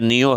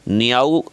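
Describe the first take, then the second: First: The name ends with an 'oh' sound. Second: The name ends with an 'ow' sound. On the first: The speaker calls it right. "सही उच्चारण है नियो है" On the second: The speaker calls it wrong. "नियाऊ नहीं है"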